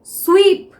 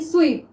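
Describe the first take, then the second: First: स्वीप said on its own, louder and clearly split as sw-eep; sounding out the word. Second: Said in the usual way. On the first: Shown as a demonstration. Teacher to shorthand students, sounding out स्वीप loudly. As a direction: stretch स्वीप so the स्वे sound rings out. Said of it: "पहले स्वीप में हमें स्वे का sound आ रहा है". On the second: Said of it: "देखिए किस तरह से".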